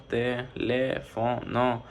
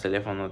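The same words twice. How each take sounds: First: "teléfono" very slowly, in four separate syllables; dividido em sílabas. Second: Said in the usual way. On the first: Shown as a demonstration. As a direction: break "teléfono" into te, le, fo, no with pauses. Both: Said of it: "tiene cuatro sílabas".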